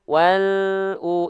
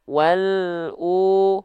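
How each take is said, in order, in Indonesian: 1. L langsung mengalir ke U. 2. L langsung mengalir ke U.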